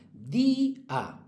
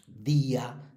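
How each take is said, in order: First: "Día" split as DÍ-a, high held "í"; fuerza en la I. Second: Said in the usual way. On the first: Shown as a demonstration. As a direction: hold "Día" high on the "í", then drop to "a". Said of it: "tienen la fuerza en la penúltima". ("Día" partido, con la "í" aguda y larga) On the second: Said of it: "todas las que acaban en ía".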